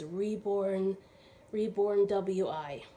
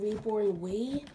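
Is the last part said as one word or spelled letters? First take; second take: spelled letters; one word. First: The last part is said as spelled letters. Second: The last part is said as one word. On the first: The speaker calls it right. "So I realized today it's Reborn W-I. It's not pronounced Wee" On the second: The speaker calls it wrong. "I was mispronouncing the name of the nursery. This came, I was saying Reborn Wee"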